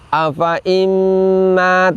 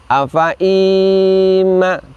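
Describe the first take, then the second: First: The first vowel of 'imma' is kept short. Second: The first vowel of 'imma' is drawn out long. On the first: The speaker calls it right. "kita baca seakan-akan tidak terdapat huruf ya setelah hamzah kasroh" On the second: The speaker calls it wrong. "Tidak boleh kita baca demikian"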